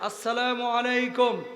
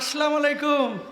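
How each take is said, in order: First: The greeting starts with the full assalamu. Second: The greeting starts with assalam, no final vowel. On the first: The speaker calls it right. "বলেন আসসালামু আলাইকুম" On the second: The speaker calls it wrong. "এগুলো সালামের নামে ফাইজলামি"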